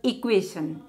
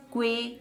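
First: Said in the usual way. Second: "Equation" split as e, qua, tion; three separate beats on "Equation"; syllable by syllable. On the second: Shown as a demonstration. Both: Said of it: "Three syllable words".

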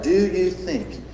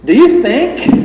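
First: "Do you think?" soft and slow, dwelling on "you"; quiet slow stress on you. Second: "you" lifted high and hard; a sharp, challenging "Do you think?" with "you" up high; Jesus asking, stress on you. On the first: Shown as a demonstration. Preacher pondering Jesus' question with the congregation, softly. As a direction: let "you" sink in gently. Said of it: "let's just stop and, and ponder that". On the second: Retold or imitated. Preacher voicing Jesus challenging the crowd, "you" hit high. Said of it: "he asks them the question".

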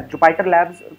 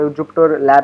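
First: Labs with a clear s sound at the end; with final s. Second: Lab said singular, no s at the end; without final s. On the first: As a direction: say Jupyter Labs, plural, ending on s. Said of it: "कुछ लोग Jupyter Labs कहते हैं". (Labs आखिर में s के साथ) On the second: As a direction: say Jupyter Lab, ending cleanly on b. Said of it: "Jupyter Lab नहीं कहते हैं". (Lab बिना s के) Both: Shown as a demonstration.

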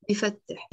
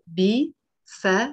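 First: Said in the usual way. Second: "بيفتح" pulled apart syllable by syllable; three separate syllables. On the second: Shown as a demonstration. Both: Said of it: "It's a three syllable verb".

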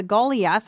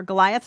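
First: "Goliath" said as GOH-lee-ath; original-name pronunciation. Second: "Goliath" said as guh-LIE-uth; English pronunciation. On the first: Teacher naming the forehead star, Goliath pronounced GOH-lee-ath. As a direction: say "Goliath" with a long GOH and an ee in the middle. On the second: Teacher restating the star's name, Goliath pronounced guh-LIE-uth. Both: Shown as a demonstration. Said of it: "as we would say it".

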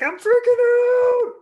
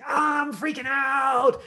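First: Very high, loud, slow panic scream; freaking out. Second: Loud, slow, high panicked shout; freaking out. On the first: Coach demos exploring a freak-out, screaming loud. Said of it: "exploration of, like". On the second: Actor exploring a freak-out, shouts in panic. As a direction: wail it out in full panic. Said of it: "just gonna try saying". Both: Shown as a demonstration.

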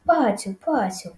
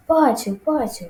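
First: Gentle call. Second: High, raised-voice call. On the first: Farmer luring the piglet back, gentle call. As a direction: coax the pig gently, voice eased. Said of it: "лагідно повторив пан Цукерман". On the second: Farmer luring the pig to the bucket, calling out. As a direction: call the pig over, pitched up. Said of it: "покликав господар". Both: A narrator's reading.

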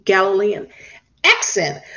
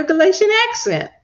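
First: "Galilean" said carefully as a correction; corrected name. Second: "Galatian" said by slip in place of Galilean; mispronounced name. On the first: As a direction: correct yourself to "Galilean", pausing before "accent". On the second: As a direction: misread it as "Galatian accent". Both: Real, not acted. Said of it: "I don't know why I was saying Galatian".

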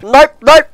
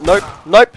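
First: High, loud NOPE, NOPE; escalating frustrated refusal; exasperated shouting. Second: Said in the usual way. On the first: Real, not acted. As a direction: fire out each NOPE as a high yell.

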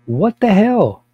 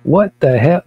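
First: Indignant. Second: Loud disbelief. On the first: Outraged rant at church police. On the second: Repeated outrage, louder. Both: Real, not acted.

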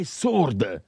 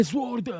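First: "sword" with silent w, like sord; "sword" said as "sord", falling; corrected sword. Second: "sword" with the w sounded, like zword; "sword" with a buzzing z and a w; mispronounced sword. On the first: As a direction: drop the w from "sword". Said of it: "è sword". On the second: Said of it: "Non è sword". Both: Shown as a demonstration.

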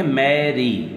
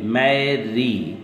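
First: Said in the usual way. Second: मैरी said very slowly, the final ई drawn out long; stretched Mary. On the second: Shown as a demonstration. Teacher drawing out मैरी so students hear the ee vowel. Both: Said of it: "वाई से sound क्या आ रही है".

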